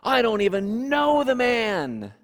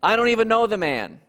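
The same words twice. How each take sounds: First: Firm, raised denial, higher pitched; flat-out denial with a raised voice; adamant denial. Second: Fast, louder exclaimed denial. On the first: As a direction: insist you never met him. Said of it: "Peter adamantly said". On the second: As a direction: blurt it out in a heated rush. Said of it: "After the third time of exclaiming". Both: Acted.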